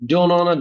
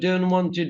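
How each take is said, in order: First: "Want to" is reduced to "wanna." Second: "Want to" is said as two full words.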